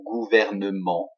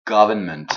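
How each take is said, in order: First: Gouvernement with French vowels and nasal ending; French pronunciation. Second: Government with English sounds, stressed on the first syllable; English government, ending in a spoken n-t; English pronunciation. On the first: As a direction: say gouvernement the French way, evenly stressed. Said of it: "hein, en français". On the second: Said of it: "en anglais". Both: Shown as a demonstration.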